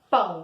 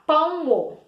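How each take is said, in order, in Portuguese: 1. A palavra tem uma sílaba. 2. A palavra tem duas sílabas. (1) "a gente abre a boca apenas uma vezinha" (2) "olha que errado. Eu abri minha boca duas vezes"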